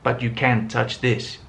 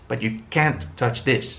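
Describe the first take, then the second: First: The word touch carries the main stress. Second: The word can't carries the main stress. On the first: The speaker calls it wrong. "he wouldn't have said" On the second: The speaker calls it right. "He would have emphasized can't and not the verb for the negative"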